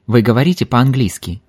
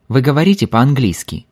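Both takes have the same delivery.

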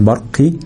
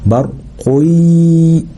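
First: Short برقي with the qaf wrongly given i; wrong kasra. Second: Very slow, higher برقي, held nasal glide after qu; damma kept. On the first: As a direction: say برقي as "barqi" with an i after q. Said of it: "ما بقولش برقي". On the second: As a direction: say برقي as "barquy" with u, then a long y. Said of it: "القاف مضمومة زي ما هي". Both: Shown as a demonstration.

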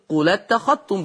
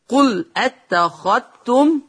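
First: قل اتخذتم linked as "qulattakhattum"; hamza dropped. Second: Said in the usual way. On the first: Shown as a demonstration. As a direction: drop the hamza, slide قل straight into اتخذتم. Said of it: "بينقل حلقة الهمز إلى الساكن". (قل اتخذتم بنقل الهمزة إلى اللام) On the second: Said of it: "يقرأ بالنقل".

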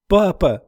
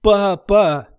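First: Calling into the forest, higher; girl forced at gunpoint to call father, calling out. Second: A higher, louder desperate shout; girl ordered to call louder, desperate shout. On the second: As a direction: yell it as loud as you can. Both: A narrator's reading. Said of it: "«Громче!»".

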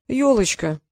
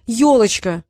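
First: Said in the usual way. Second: Louder, emphatic answer; loud, decisive repeat; insistent exclamation. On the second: A narrator's reading. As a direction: fire the word back firmly. Insistent repeat after challenge.

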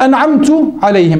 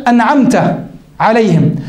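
First: أنعمت عليهم with the final تاء said with u, anعamtu; أنعمت said as anعamtu, the mistaken damma on تاء; demonstrating the error: أنعمت with تُ; wrong vowel demo. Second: Said in the usual way. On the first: Shown as a demonstration. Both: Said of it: "بضم التاء".

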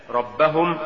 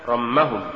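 First: Said in the usual way. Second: رمهم with م where ب belongs; faulty reading of ربهم as رمهم; mispronounced ب. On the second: Shown as a demonstration. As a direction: say رمهم, an m replacing the b. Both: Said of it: "تقرأ لحنا".

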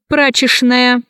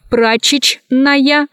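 First: Прачечная said as прачешная; CHN as SHN. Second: Slow прачечная, cut as прачеч-ная; spelling pronunciation. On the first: Teacher showing how прачечная is pronounced, SH sound. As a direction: use Ш for the second Ч in прачечная. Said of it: "произносится". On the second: Teacher showing how прачечная is written, spelled-out reading. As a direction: keep both Ч sounds in прачечная. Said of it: "Пишется". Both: Shown as a demonstration.

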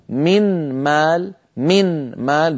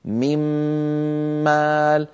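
First: من مال بنون ساكنة ظاهرة قبل الإدغام، ببطء; انطق النون واضحة ثم الميم; نون ساكنة ظاهرة. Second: من مال بميم مشددة بعد الإدغام مع غنة; أدغم النون في الميم; إدغام بغنة. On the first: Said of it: "كان النطق ... بنون ساكنة". (قبل الإدغام بنون ساكنة) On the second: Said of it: "الآن بعد الإدغام صار". (بعد الإدغام بميم مشددة) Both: Shown as a demonstration.

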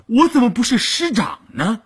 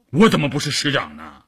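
First: Much higher, emphatic comeback; high, insistent rhetorical question; insistent retort. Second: Said in the usual way. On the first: A narrator's reading. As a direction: repeat it indignantly, pitched right up. Repeats the retort more insistently.

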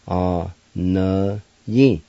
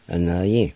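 First: "A Na Yin" slowly, syllables drawn out; slow pronunciation. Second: Said in the usual way. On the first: Shown as a demonstration. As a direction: stretch each syllable of "A Na Yin". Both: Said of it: "It's pronounced like this".

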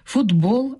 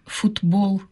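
First: Футбол said as фудбол; Футбол pronounced фудбол; voiced т. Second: Футбол with a plain т; футбол pronounced with т, the wrong form; unvoiced т. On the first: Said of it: "а не футбол". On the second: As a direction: keep the т in футбол. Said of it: "а не". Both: Shown as a demonstration.

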